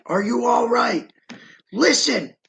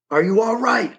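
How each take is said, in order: First: Calling out. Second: Said in the usual way. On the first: Retold or imitated. Calling out to a trapped man.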